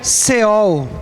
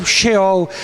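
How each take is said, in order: First: "Seol" opening on a plain s; slow "Seol" with an s sound; alternative pronunciation. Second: "Sheol" opening on a sh sound; slow "Sheol" with a sh sound; alternative pronunciation. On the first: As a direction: pronounce "Seol" with s rather than sh. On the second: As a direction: pronounce "Sheol" with sh rather than s. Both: Shown as a demonstration. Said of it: "é Seol ou Sheol".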